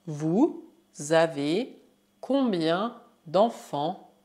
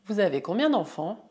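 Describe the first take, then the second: First: Slow, broken into pieces; word by word. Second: Quick, linked words; fluent run-through. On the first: Teacher models French question, slow word by word. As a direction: leave gaps for the learner. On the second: Teacher repeats question whole, fast and fluent. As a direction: run the question together briskly. Same phrase at quicker speed. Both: Shown as a demonstration.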